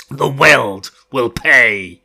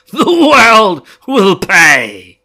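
First: Loud, slow, crazed vow; mad threat. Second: Higher, much louder, very slow crazed shout; mad shout. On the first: Fane threatens the world, loud crazed vow. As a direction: promise ruin like a madman. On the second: Fane screams his threat at the night, crazed shout. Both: Acted. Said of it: "He crackled at the night, mad with laughter".

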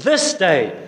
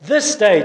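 First: Said in the usual way. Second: "This day" punched higher and louder, falling; stress on THIS DAY. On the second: Shown as a demonstration. Preacher urging the congregation that salvation is this day, emphatic. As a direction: hit "This day" hard for the congregation. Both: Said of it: "the angel emphasizes the word today".

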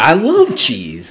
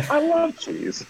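First: Slow crotchety old man impression. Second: Put-on high, faint old man voice; thin, quavering old man. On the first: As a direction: croak it like a grumpy old man. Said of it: "he's like". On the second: Repeating the Ed Asner line.

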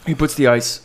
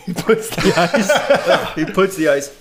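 First: Said in the usual way. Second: Laughing through the words; giggling while trying to talk. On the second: Real, not acted. Cracking up mid-pitch.

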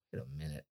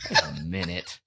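First: Much lower and very soft, catching himself; stunned hush. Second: Lower, a laugh with a catch of tears; laughing and tearing up. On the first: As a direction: say it under your breath, realising. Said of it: "and then I'm like". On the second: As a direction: laugh through welling tears. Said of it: "There's no way I'm crying". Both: Retold or imitated.

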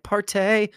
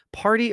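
First: "partay" with a stretched "-tay" ending; jokey party-slang "partay"; playful "partay". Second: Said in the usual way. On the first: Shown as a demonstration. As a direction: say "partay", higher, ending on a long AY. Playful respelling of podcast name.

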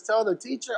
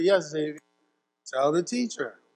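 First: "Tell the teacher?" with the tune rising at "teacher"; puzzled question. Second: "tell the teacher" softer, falling firmly at "teacher"; firm answer. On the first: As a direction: echo it back in doubt, rising at the end. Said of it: "He says". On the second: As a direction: settle it calmly like a parent. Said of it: "I said". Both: Retold or imitated.

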